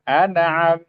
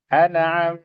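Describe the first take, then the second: Both takes have the same delivery.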